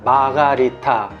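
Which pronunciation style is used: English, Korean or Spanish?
Korean. It is said in a Korean-style pronunciation. "유독 한국에서만 마가리타 혹은 마르가리타로 발음"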